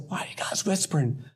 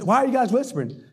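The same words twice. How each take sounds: First: Soft, secretive murmur; hushed question. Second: Higher, quick and full-voiced. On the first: Retold or imitated. Boy to friends out in the office, hushed question. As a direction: keep it down, barely voiced. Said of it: "Not that". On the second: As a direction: blurt it with no attempt at hushing. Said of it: "Not that. His".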